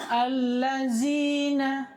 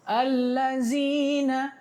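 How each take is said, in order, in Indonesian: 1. Konsonan tengahnya adalah bunyi z yang berdengung. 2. Konsonan tengahnya adalah bunyi z yang berdengung.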